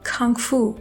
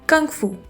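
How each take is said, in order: First: The k is said with a puff of air. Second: The k is said without a puff of air. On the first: The speaker calls it right. "पफ of air के साथ बोलना है" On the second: The speaker calls it wrong. "Urdu के काफ की तरह pronounce करेंगे"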